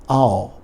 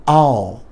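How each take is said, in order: No difference in how they are said.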